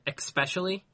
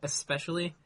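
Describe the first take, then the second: First: The word starts with an 'ex' sound. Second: The word starts with an 'es' sound. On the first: The speaker calls it wrong. "That's like espresso" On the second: The speaker calls it right. "Instead of especially"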